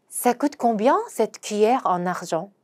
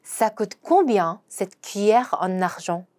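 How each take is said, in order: First: Very slow, each syllable clear; slow French teaching read; slow demo pronunciation. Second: Very slow, careful French; slow model sentence again; slow repeat. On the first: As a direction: spell out "Ça coûte combien" slowly for learners. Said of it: "요거 한번 발음을 해보도록 하겠습니다". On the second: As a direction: drag out "combien" clearly. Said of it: "한 번 더". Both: Shown as a demonstration.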